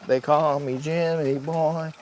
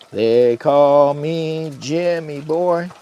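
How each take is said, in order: First: Said in the usual way. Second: Slow drawn-out branding announcement; slogan voice. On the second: Shown as a demonstration. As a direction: sell the name like a jingle. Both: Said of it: "I am branding Jimmy Boy".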